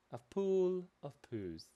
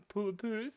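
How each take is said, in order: First: Drawn-out, savouring the pun; slow and savoured. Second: Said in the usual way. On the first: Shown as a demonstration. Streamer admiring the drawing, savouring the silly pun. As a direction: roll the joke out slowly.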